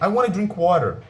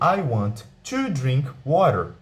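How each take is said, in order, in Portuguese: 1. A frase é dita rápido, as palavras se juntam. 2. A frase é dita devagar, cada palavra clara.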